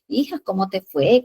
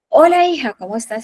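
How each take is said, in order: First: It is said softly and warmly. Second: It is said loudly, almost shouted.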